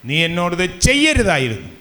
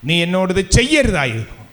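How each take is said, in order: No difference in how they are said.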